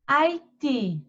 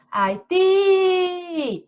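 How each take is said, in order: First: Said in the usual way. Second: HAITI called high, with a very long TI; high "Hai-tiii!", last syllable held; calling out the word. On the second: Shown as a demonstration. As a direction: stretch the TI of Haiti like calling someone. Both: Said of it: "chama Haiti".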